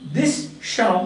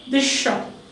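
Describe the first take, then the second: First: The end of this has a plain s sound. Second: The end of this has an sh sound. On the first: The speaker calls it wrong. "We don't say this shop" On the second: The speaker calls it right. "but we say this shop"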